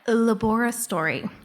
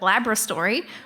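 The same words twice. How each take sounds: First: The word does not start like 'Labrador'. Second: The word starts like 'Labrador'. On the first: It avoids being mistaken for talk about dogs. The speaker calls it right. "I have to say it like that" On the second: Listeners think it refers to a dog. The speaker calls it wrong. "which is what I would naturally say"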